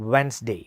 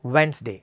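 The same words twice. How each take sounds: The two takes are said the same way.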